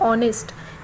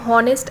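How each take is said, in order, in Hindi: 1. शब्द की शुरुआत स्वर ध्वनि से होती है। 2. शब्द की शुरुआत 'h' ध्वनि से होती है। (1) "बल्कि हम ऑनेस्ट इस तरह पढ़ते हैं" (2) "हम हॉनेस्ट ऐसे नहीं पढ़ते"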